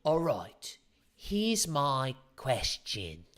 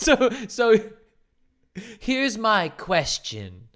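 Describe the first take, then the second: First: Slow, drawn-out mock suspense line; mocking coach. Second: Slow, hammed-up mock suspense line with a laugh; mocking coach. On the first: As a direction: parody a cheesy dating coach, dragging it out. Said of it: "without having to go". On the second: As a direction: parody the dramatic coach line, stretching it out. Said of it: "mocking the technique again".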